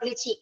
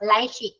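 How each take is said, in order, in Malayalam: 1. ആദ്യത്തെ സ്വരം 'ee' പോലെയാണ് ഉച്ചരിക്കുന്നത്. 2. ആദ്യത്തെ സ്വരം 'eye' പോലെയാണ് ഉച്ചരിക്കുന്നത്. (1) "നോട്ട് ലിച്ചി" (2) "ലൈച്ചി ആണ് കേട്ടോ"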